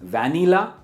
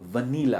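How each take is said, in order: First: The first syllable sounds like 'van'. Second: The first syllable sounds like 'vuh'. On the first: The speaker calls it wrong. "तो आपको लगता है कि ये होगा वैन ईला" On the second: The speaker calls it right. "It's वनीला"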